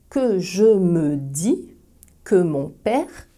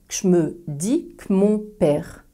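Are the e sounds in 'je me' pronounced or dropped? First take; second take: pronounced; dropped. First: Every e is pronounced in full. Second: The e sounds are dropped and syllables contracted.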